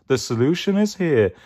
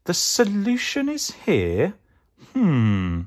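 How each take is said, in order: First: Higher-pitched groovy guru statement; confident hippie-dude character voice; Mystic Mango. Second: High, questioning "The solution is here?"; puzzled pondering. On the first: Acted. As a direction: announce it like a cool mystic. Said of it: "It's Mystic Mango". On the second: A narrator's reading. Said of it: "thought Sue Potato".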